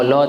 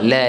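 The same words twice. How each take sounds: First: The vowel is a plain, upright open a. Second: The vowel is tilted slightly toward e. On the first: The speaker calls it wrong. "la tak kena" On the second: The speaker calls it right. "la pun sama"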